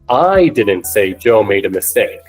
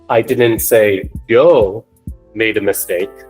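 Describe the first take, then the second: First: The word I carries the strongest stress. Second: The word Joe carries the strongest stress. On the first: Someone else said it. "When I put the emphasis on I" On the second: Someone else made the mistake. "So when we place the emphasis on Joe"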